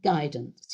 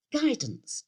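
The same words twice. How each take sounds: First: Low-pitched vicar's "Guidance"; vicar supplying the word. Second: High-pitched "guidance", falling at the end; vicar's wife agreeing. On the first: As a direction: say "Guidance" low, falling at the end. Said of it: "he said". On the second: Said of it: "she said". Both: Acted.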